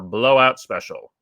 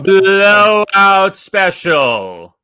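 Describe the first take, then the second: First: It is said plainly, without extra energy. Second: It is said with extra energy and emphasis.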